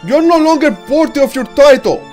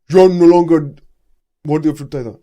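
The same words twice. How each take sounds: First: The voice is plain, not deep or echoey. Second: The voice is deep, echoey and monstrous. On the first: The speaker calls it wrong. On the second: The speaker calls it right.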